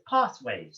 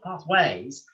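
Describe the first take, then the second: First: The stress is on the first syllable. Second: The stress is on the second syllable. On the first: The speaker calls it right. "the stress goes on path. So it's pathways" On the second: The speaker calls it wrong. "It's not pathways"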